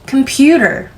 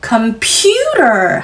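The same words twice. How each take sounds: First: The pitch rises only slightly on the stressed syllable. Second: Only the pitch jumps sharply on the stressed syllable. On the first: The speaker calls it right. "살짝 음이 높아지는 건 너무나 당연하고 자연스러운 현상이죠" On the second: The speaker calls it wrong. "음만 울리는 건 하지 말아주세요. computer 하시면 안 됩니다"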